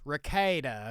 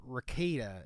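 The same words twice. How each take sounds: First: Rekieta said reh-KAY-duh, pointedly corrected; right pronunciation. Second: Put-on Rekieta said reh-KEE-duh, the old wrong way; wrong pronunciation. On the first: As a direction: land Rekieta as reh-KAY-duh, setting them straight. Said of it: "Get it right". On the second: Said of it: "I've been getting the name wrong". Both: Shown as a demonstration.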